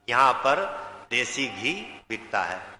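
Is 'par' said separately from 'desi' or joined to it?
separately. There is a break between par and desi.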